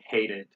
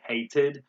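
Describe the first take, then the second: First: The middle sound is like a d. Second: The middle sound is a clear t. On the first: "We say" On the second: "They say"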